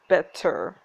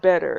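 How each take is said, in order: First: It is said British-style with a hard T. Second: It is said American-style with a D sound.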